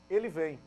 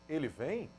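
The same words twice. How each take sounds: First: "Ele vem" stated with a falling, settled tune; affirmative intonation. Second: "Ele vem" asked, pitch rising on "vem"; questioning intonation. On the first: Teacher showing students how intonation changes meaning, affirmative statement. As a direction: say "Ele vem" as a plain affirmation, pitch coming down. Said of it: "uma afirmação". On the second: Teacher contrasting two readings of one phrase, questioning rise. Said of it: "mostrando que é uma indagação". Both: Shown as a demonstration.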